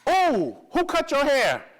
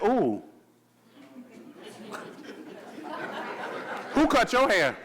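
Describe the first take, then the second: First: It sounds admiring, as if the hair looks good. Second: It sounds disapproving, as if the haircut is bad.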